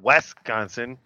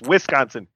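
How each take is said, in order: First: The first syllable is not said like 'Wiz'. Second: The first syllable is said like 'Wiz'. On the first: The speaker calls it wrong. "not Wisconsin" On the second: The speaker calls it right. "it's Wisconsin"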